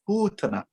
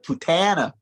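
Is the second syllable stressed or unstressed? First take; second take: unstressed; stressed. First: The second syllable is not stressed. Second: The second syllable is strongly stressed. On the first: The speaker calls it right. "Putana instead of Putana" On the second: The speaker calls it wrong. "instead of Putana"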